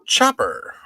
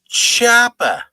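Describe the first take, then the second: First: It is said in a plain accent. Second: It is said in a Rhode Island accent.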